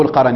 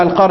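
First: القرن said "al-qaran", an a after the r; القرن with the ra opened, qa-ran; fatha on the ra. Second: القرن said "al-qarn", r and n joined; القرن as one closed syllable, qarn; sukun on the ra. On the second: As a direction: say القرن as "al-qarn", no vowel after r. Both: Shown as a demonstration. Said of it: "أما فتحها أو سكونها".

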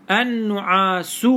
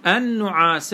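First: النعاس said slowly as an-nu'aasuu, ending in 'u'; nominative damma ending. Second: النعاس said an-nu'asa, ending in 'a'; accusative fatha ending. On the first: Teacher showing the variant ending, النعاس as an-nu'asu. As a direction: finish النعاس on a drawn-out 'u'. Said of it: "بالرفع". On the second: Teacher showing the case ending, النعاس as an-nu'asa. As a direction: finish النعاس on an open short 'a'. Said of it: "بالنصب". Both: Shown as a demonstration.

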